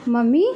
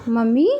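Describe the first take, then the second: No difference in how they are said.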